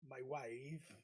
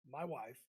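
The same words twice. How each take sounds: First: It is said in a Borat impression. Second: It is said in his normal voice.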